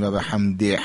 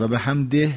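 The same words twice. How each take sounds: First: حمده ending in a forced, rasping "hhh"; exaggerated heavy breath on the end of حمده; over-pressed final h. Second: حمده ending in a light, clear "h"; just make the last ه of حمده distinct, without force; ordinary easy "hamdeh" ending on حمده; natural final h. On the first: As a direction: push the last ه of حمده hard like ح. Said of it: "هی جیمی نیست که با فشار تلفظ بشه". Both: Shown as a demonstration.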